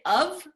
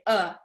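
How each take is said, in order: First: It is said fully as 'of'. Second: It is reduced to a short 'uh'. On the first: The speaker calls it wrong. "We don't say of" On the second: The speaker calls it right. "we just say uh"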